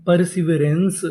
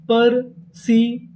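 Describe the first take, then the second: First: Said in the usual way. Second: perseverance said slowly, syllables spaced; slow model reading; slow full word. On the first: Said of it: "perseverance का मतलब". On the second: Shown as a demonstration. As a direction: unveil the whole word slowly. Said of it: "पूरी meaning क्या बनी".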